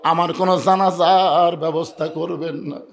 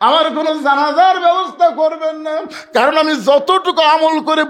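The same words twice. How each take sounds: First: Said in the usual way. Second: High, loud preacher's cry; impassioned outcry. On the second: Retold or imitated. Fatema forbidding any funeral prayer to Ali, impassioned outcry. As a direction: cry the request out at high pitch. Same request repeated as an outcry.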